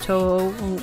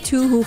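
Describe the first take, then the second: First: The first syllable sounds like 'toe'. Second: The first syllable sounds like 'too'. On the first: This is the proper pronunciation. "I know like it's pronounced Toho, of course" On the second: It is said this way as a joke. "I pronounce it like the the number two and then who who"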